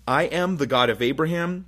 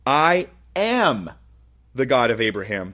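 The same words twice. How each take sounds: First: The word 'am' is not specially stressed. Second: The word 'am' is strongly stressed.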